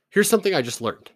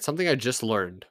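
First: Loud opener. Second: Said in the usual way. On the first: Real, not acted. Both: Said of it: "All right, something I just learned".

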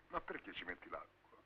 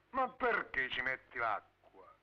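First: Muttered under the breath; quiet. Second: Drawn-out slow reproach; slow, reproachful. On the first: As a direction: grumble it low and soft. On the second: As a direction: spell it out slowly to her. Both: Acted. Same question asked twice.

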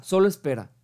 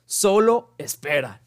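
First: Said in the usual way. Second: "Solo espera" slowed and said louder, every word leaned on; slow, weighty delivery. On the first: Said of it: "así dice nuestro gran amigo filósofo Seneca". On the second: Shown as a demonstration. Stating Seneca's rule to viewers, slow and weighty. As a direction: let "Solo espera" land slowly and firmly, like a motto. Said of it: "Literalmente así dice".

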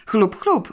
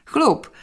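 First: Higher, willing confirmation; lightly acted keen assent; eager agreement. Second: High, decisive happy exclamation; short burst of resolute joy; firm, joyful. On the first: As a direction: chime in readily. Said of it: "potwierdził chętnie Stefan". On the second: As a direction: announce it cheerfully and decisively. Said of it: "stanowczym, radosnym głosem". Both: A narrator's reading.

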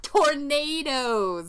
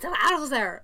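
First: "Tornadoes" drawn out slowly with a long "nay"; dawning realisation. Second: "Tornadoes" said Scottish-style as "tor-NAH-does"; different vowel and stress. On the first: Visitor finally decoding the driver's word, "Tornadoes" slowly with long "nay". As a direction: say "Tornadoes" loud and higher, American "nay" stretched. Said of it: "a full ten seconds to be like". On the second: Host imitating the cab driver, "Tornadoes" with Scottish "nah". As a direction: punch an open "nah" in "Tornadoes", higher. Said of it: "He's accenting, like, the different part of it".

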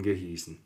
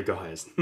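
First: "gehießen" with ie, a slip; slipped reading "gehießen"; misreading. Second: "geheißen" with ei, corrected; fixing it to "geheißen"; correction. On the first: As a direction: say "gehießen" with a long i sound. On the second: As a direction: say "geheißen" with an ei diphthong. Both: Real, not acted. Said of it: "äh, geheißen".

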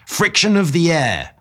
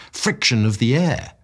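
First: High, loud shout of the words. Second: Said in the usual way. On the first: A narrator's reading. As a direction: shout it so he finally hears. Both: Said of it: "I shouted".

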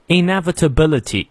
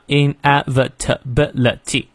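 First: Said in the usual way. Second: "inevitability" split into seven separate beats; syllable by syllable. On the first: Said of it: "下面这个单词比较难念". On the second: Shown as a demonstration. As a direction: pause between every syllable of "inevitability". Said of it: "感受一下". (“inevitability”逐个音节分开念)

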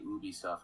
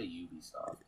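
First: "Ubisoft" starting with an OO sound; "Ubisoft" with no Y glide at the start; OO-bee pronunciation. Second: "Ubisoft" starting like the word you; "Ubisoft" with a Y glide at the start; YOO-bee pronunciation. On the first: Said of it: "You say Ubisoft, I say Ubisoft". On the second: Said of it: "I say Ubisoft". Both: Shown as a demonstration.

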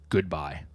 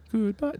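First: Said in the usual way. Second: Very high, lilting goodbye; playful goodbye. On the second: Pretend. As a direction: toss out a mock farewell in a high, rising voice. Playfully repeats the chapter title.

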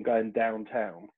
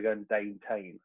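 First: "downtown" with open "ow" vowels; standard "downtown". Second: "downtown" said as "dayn-tayn"; proper Pompey "downtown". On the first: Man giving his own way of saying it, "downtown" with "ow" vowels. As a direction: say "downtown" with both vowels as in "now". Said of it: "I'd say". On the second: Man imitating his mum and dad's Pompey speech, "downtown" as "dayn-tayn". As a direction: turn both "ow" sounds in "downtown" into "ay". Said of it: "my mum and dad would say". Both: Shown as a demonstration.

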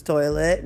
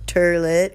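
First: Said in the usual way. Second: "toilet" said as "terlet"; "toilet" turned into "TER-let"; dialect pronunciation. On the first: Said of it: "it was toilet". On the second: Shown as a demonstration. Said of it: "this is how it goes".

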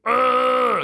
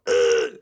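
First: Much higher, louder throaty yelp; upper throat register cry. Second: Lower, louder short groan; low throaty groan. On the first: Showing the weird upper register of a bedtime whimper, high throaty cry. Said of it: "you go into that upper weird register where you use your throat". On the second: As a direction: drop it down to a throaty grunt. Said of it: "that upper weird register". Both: Shown as a demonstration.

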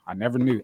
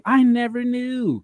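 First: Said in the usual way. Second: High drawn-out exclamation. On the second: Acted. Repeat, high slow far take.

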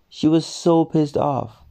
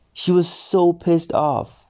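Both takes have the same delivery.

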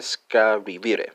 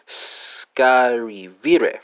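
First: Said in the usual way. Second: Scarivire drawn out very slowly, syllable by syllable; slow demo pronunciation. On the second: Shown as a demonstration. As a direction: stretch out scarivire slowly to model it. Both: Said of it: "spelled S C R I V E R E".

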